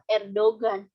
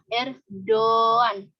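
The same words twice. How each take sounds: First: The middle g is clearly pronounced. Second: The middle g is silent, the o lengthened. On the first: The speaker calls it wrong. "bukan Erdogan, seperti layaknya bahasa Indonesia" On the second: The speaker calls it right. "tapi dibacanya Erdogan. Jadi yumusyak yang di tengah ini tidak dibaca"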